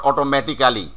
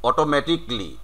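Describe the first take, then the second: First: "automatically" spelled out as oto-meti-KAA-li; every written syllable of "automatically" sounded; wrong "automatically". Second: "automatically" as oto-MATIK-lee; "automatically" ending in a quick "tik-li"; real "automatically". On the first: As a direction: say "automatically" with a full "kaa" before "li". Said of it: "not automatically". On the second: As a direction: say "automatically" with the "ca" dropped. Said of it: "real pronunciation is". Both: Shown as a demonstration.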